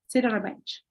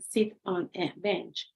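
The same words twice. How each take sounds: First: The words run together with sounds linked. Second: Each word is said separately, one by one. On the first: "It goes just together" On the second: "like one by one"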